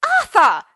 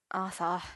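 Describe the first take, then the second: First: Very loud, high shout of the name; yelled. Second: Gentle. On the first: Merlin scolding Arthur on the floor, outraged yell. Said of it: "Merlin yelled". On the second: Merlin answering Arthur's sad confession, gentle murmur. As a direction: say the name tenderly, without force. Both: A narrator's reading.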